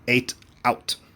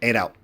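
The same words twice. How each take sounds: First: The phrase is said slowly, each part clear. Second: The phrase is said fast, the parts blended. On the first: "if you say it slowly, it's very easy" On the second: "But if you say it fast"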